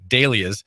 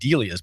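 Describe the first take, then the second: First: The first vowel sounds like an A. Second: The first vowel sounds like an E. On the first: The speaker calls it right. "it's actually ... correctly pronounced with an A, not an E" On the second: The speaker calls it wrong. "I've been saying"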